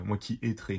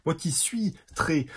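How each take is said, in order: First: Said in the usual way. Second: "suis" drawn out and higher; very slow, stressing "suis" to fix the slip; deliberate self-correction. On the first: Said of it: "ça se voit que je suis fatigué". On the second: Real, not acted. Tired vlogger correcting own grammar for viewers, slow and emphatic. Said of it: "j'allais dire moi qui suis très".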